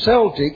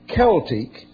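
First: The word begins with a soft S sound. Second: The word begins with a hard K sound. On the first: The speaker calls it wrong. "must never be pronounced soft as if C were S" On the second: The speaker calls it right. "as always pronounced, when correctly pronounced for the Welsh portion"

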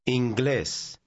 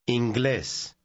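No difference in how they are said.

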